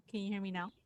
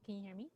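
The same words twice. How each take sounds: First: Faint voice, a little better; slightly faint. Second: Very faint, far from mic; faint, barely picked up question; barely audible. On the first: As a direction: still faint but a bit clearer. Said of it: "It's a little bit better, but not much". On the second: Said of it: "I can barely, barely hear you". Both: Real, not acted.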